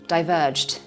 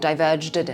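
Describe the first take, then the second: First: The -ed ending blends into one final consonant. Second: The -ed ending is pronounced as an extra syllable. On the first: The speaker calls it right. "It's one clean j" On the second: The speaker calls it wrong. "We don't say diverged"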